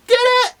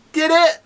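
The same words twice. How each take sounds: First: Very high falsetto doubting question; squeaky disbelief. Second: Pitched-up, doubting "did it"; high sceptical question. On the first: Repeats the doubt, much higher. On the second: First of two escalating doubting questions. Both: Acted.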